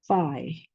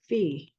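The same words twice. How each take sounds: First: The letter name is pronounced the English way. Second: The letter name is pronounced the Greek way. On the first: "in English" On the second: "let me read in Greek"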